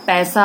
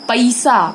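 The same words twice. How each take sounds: First: पैसा said with a full open ऐ, as pɛsa; correct pronunciation. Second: पैसा said as "pasa", with a short flat vowel in place of ऐ; eastern UP pronunciation. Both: Shown as a demonstration. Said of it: "पैसा होगा".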